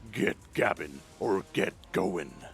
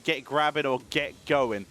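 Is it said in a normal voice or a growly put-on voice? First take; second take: put-on; normal. First: It is said in a put-on Worgen voice. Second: It is said in his normal voice.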